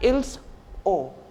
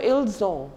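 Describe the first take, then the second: First: The two words are kept separate. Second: The two words are joined together. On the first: The speaker calls it wrong. "It's not like" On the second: The speaker calls it right. "we uh, pronounce it together"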